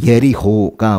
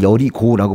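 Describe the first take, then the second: First: The name is pronounced as Yeriho. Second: The name is pronounced as Yeorigo. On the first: This is the original Hebrew pronunciation. "원래 히브리어 발음이거든요" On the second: This is the usual Korean name. "우리는 여리고를 여리고라고 부르지만"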